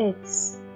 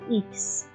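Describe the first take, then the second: First: The letter begins with an 'eh' vowel. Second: The letter begins with an 'ee' vowel. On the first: The speaker calls it right. "ایکس نه بچه ها اکس" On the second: The speaker calls it wrong. "خیلی جا بچه ها میگن ایکس"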